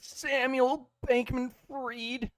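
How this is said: The name is said in a put-on voice. The speaker calls it right. "Your merchant voice needs some fucking work"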